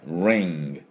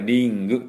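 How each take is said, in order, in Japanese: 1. その単語は単独のngの音で終わります。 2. その単語は硬いgと母音で終わります。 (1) "最後ng、ng で終わりですね" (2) "これring と言わない"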